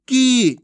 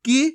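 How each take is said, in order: First: की as a long, loud "keee"; drawn-out vowel. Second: की as a brief "ki"; short vowel. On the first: Teacher recapping long ee against short, drawn out. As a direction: hold the vowel of की. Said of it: "इसमें ज़्यादा समय लगेगा". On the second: Teacher recapping short i against long, brief vowel. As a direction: keep की short. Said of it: "इसमें तो कम समय लगा था". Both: Shown as a demonstration.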